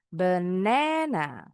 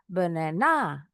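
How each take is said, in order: First: The stress is on the second syllable. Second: The stress is on the last syllable. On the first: The speaker calls it right. "suku kata kedua kita bacanya lebih tinggi" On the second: The speaker calls it wrong. "Atau di akhir"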